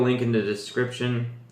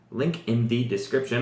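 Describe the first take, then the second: First: The words are run together and slurred. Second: Each word is pronounced clearly and distinctly. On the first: The speaker calls it wrong. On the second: The speaker calls it right.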